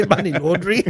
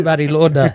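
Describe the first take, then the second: First: Says laundry like the wash, a laugh in it; laundry said as the washing word, amused; laughing mix-up. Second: Launder said with a laugh, as the right word; corrected. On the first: To his mates, laughing over laundry for launder. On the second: To his mates, laughing, saying launder right. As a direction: takes on the fix of launder, laughing. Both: Real, not acted. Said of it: "It's money launder".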